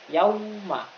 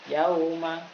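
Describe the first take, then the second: The two takes are said the same way.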